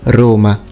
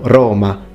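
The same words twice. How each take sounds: First: The first vowel is closed and short. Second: The first vowel is open and longer. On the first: This is how modern Romans say it. "with a closed O" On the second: This is how it was said in ancient times. "with an open O, longer of course"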